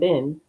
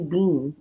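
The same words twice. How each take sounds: First: The vowel is short, sounding like 'bin'. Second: The vowel is long, sounding like 'bean'. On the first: "Not been" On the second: "That's what they always say in Canada"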